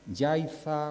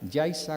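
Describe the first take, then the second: First: The z is said as a th sound. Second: The z is said as an s sound. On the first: It follows the written spelling. The speaker calls it wrong. "como los acabo de pronunciar, con Z" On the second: It follows the local spoken form. The speaker calls it right. "la pronunciación canaria"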